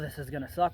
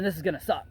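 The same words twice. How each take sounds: First: It is said in a negative, dreading tone. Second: It is said in a positive, upbeat tone. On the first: The hard workout is something to dread. The speaker calls it wrong. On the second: The hard workout is a challenge to embrace. The speaker calls it right.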